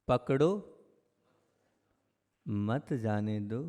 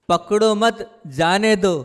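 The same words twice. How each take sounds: First: पकड़ो rising, long pause, then soft slow "मत जाने दो"; pause after पकड़ो. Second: "पकड़ो मत" in one breath, break, then "जाने दो", all high and loud; pause after मत. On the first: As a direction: set पकड़ो apart, join मत to जाने दो. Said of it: "यह बात संसार की है". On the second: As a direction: join मत to पकड़ो, raised loud voice. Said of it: "यह बात अध्यात्म मार्ग की है". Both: Shown as a demonstration.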